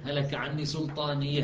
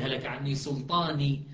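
First: سلطانية ends in a final ha of pause; with the pausal ha. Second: سلطاني ends on a plain long i; without the ha. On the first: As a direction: say سلطانية, closing on the ha. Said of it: "كذلك الحاقة". (سلطانية بهاء السكت) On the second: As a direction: say سلطاني with no final ha. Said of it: "وإلا هي مالي". (سلطاني بلا هاء السكت) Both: Shown as a demonstration.

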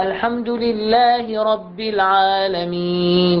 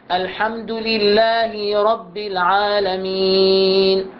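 First: Slow chant with short kasra, no ee; correct recitation. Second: لله رب chanted slowly with the kasra stretched to ee; wrong long kasra. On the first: Teacher models the correct reading for students. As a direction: recite لله رب without lengthening. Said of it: "بدون إطالة". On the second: Teacher demonstrates the common imams' mistake. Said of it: "شلون نقراها". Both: Shown as a demonstration.

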